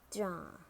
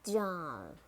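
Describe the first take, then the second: First: "jar" with a British silent R; British "jar", said jah; British accent. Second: "jar" ending in an American R; American "jar", curl the final R; American accent. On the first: Teacher models jar for learners, British accent. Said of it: "in British English". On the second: Teacher models jar for learners, American accent. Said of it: "R in American English". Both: Shown as a demonstration.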